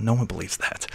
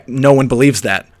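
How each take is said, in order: First: Much softer, muttered to yourself; quiet aside to yourself, muffled; muffled under the breath. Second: Said in the usual way. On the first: Shown as a demonstration. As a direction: mutter it into your hand, barely audible. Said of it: "sort of muffled". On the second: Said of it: "let slip under your breath".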